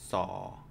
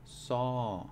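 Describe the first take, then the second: First: The syllable has a low tone. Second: The syllable has a falling tone. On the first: "it's going to be low tone" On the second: "then it is going to be a falling tone"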